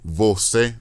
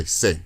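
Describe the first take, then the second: First: "você" in two full syllables; full pronunciation. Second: "sé" as one syllable, first syllable dropped; clipped colloquial form. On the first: Showing listener what Brazilians won't say, "você" in full. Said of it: "they won't say você". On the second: Showing what Brazilians say instead, "você" shortened to "sé". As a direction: cut "você" down to just "sé". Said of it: "they'll say sé". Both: Shown as a demonstration.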